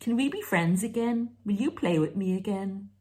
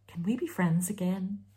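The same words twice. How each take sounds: First: Put-on higher, wheedling child asking to play; childish plea. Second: Said in the usual way. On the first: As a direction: ask like a small child wanting a playmate.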